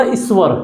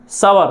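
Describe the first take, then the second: First: "ईश्वर" as is-var; added initial i. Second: "सवर" as sa-var, with a vowel after the S; no leading i in "सवर", just sa-var; full sa sound. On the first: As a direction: say "ईश्वर" with an i before the S. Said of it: "इसको बोलो ना". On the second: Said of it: "तुम भी सवर बोलोगे". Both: Shown as a demonstration.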